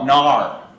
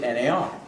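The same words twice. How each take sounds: First: The acronym is said as a single word. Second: The acronym is said as separate letters. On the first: "we want to pronounce the acronym. You want to call it" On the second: "They spell it out"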